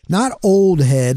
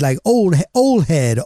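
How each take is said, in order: First: The word old keeps its final d sound. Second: The word old loses its final d sound. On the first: The speaker calls it wrong. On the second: The speaker calls it right.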